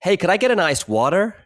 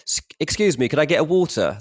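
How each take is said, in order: First: Higher-pitched mock American accent; put-on American accent. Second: Put-on polite, higher-pitched English accent; plain English accent. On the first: Expat ordering water to be understood, put-on American accent. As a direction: order like an American, a touch overdone. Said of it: "put the accent on". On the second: Englishman asking for water in America, polite English accent. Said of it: "if you say the other thing".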